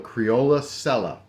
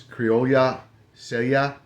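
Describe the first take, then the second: First: It is said with a Southern US accent. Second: It is said with a Spanish accent.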